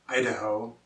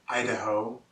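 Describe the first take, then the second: The two takes are said the same way.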